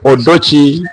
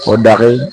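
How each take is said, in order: First: The name ends with a 'chi' sound. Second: The name ends with an 'r' syllable. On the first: This form suits Bantu-speaking listeners. "Odochi is meant for the Bantu" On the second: This form suits Luo-speaking listeners. "Odare is meant for the Luo"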